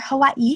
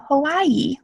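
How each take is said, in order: First: It is said with a glottal catch inside. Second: It is said smoothly with no catch inside.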